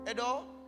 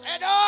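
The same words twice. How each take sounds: First: The name is said calmly, without raising the voice. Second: The name is shouted with a raised voice.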